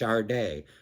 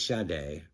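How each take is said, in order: First: The name is said with an R sound. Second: The name is said without an R sound. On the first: The speaker calls it wrong. "I do the R with my A's" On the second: The speaker calls it right. "It is Sade"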